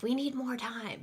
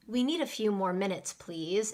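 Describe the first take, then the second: First: Higher-pitched, pressured demand; stressed. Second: Gently polite request; soft and polite. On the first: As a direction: sound stressed and a bit impolite. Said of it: "It sounds like you're stressed". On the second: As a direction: ask politely, without any pressure. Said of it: "it sounds soft and polite". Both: Shown as a demonstration.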